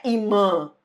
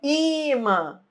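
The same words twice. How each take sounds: First: Imã with the stress moved to the final MÃ; wrong stress. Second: Imã with a long, high, stressed first I; right stress. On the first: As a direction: show imã wrongly stressed on its last syllable, MÃ. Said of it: "não é imã". (imã com a tônica errada no MÃ final) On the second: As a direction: stretch and lift the I of imã, let MÃ fall away. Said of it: "é imã". (imã com o I tônico, alongado e agudo) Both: Shown as a demonstration.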